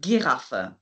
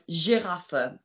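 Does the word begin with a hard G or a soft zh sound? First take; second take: hard G; soft zh. First: The word begins with a hard G sound. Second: The word begins with a soft zh sound. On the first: "with the G sound, you might also hear Giraffe" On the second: "So I taught you the word Giraffe"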